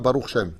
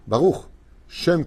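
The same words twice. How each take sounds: First: The two words run together without a pause. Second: There is a short pause after the first word. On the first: The speaker calls it wrong. "On ne dit pas Baruch Shem" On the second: The speaker calls it right. "Quand il y a une virgule, on s'arrête un petit moment"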